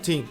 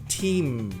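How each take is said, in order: First: The final M sound is dropped. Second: The final M sound is clearly pronounced. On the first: The speaker calls it wrong. "tem gente que aí nem pronuncia o M" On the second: The speaker calls it right. "Tem que pressionar"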